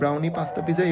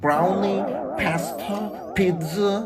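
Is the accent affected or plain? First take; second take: plain; affected. First: It is said in a plain, local Bengali accent. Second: It is said in a forced, affected Western accent. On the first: The speaker is talking naturally. The speaker calls it right. "এইভাবেও বলা যায়" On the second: The speaker is showing off. The speaker calls it wrong. "জোর করে না ওই যে ব্রাউনি পাস্তা পিৎজা এইভাবে না বলে"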